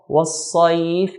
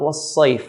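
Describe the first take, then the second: First: The vowel after the s is a clear open a. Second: The vowel after the s leans toward i. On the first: The speaker calls it right. "you have to pronounce the clear sa" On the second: The speaker calls it wrong. "Not in between fatha and kasra"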